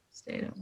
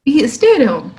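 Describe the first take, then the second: First: Hushed whispered repeat. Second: Said in the usual way. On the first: Shown as a demonstration. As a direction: whisper it, almost breath only.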